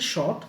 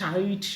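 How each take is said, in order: First: The vowel sounds like 'aw'. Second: The vowel sounds like 'eye'. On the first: The speaker calls it right. "But এটা উচ্চারণ হচ্ছে শর্ট" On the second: The speaker calls it wrong. "অনেক সময় শাইট শাউট অনেক কিছুই হইতে পারে"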